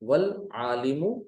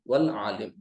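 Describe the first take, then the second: First: The word ends with a short 'u' vowel. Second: The word ends on 'm' without a vowel. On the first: The speaker calls it wrong. "आलिमु भी नहीं कहेंगे" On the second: The speaker calls it right. "वक्फ कर देंगे तो क्या पढ़ेंगे"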